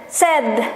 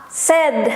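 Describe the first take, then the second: Both takes have the same delivery.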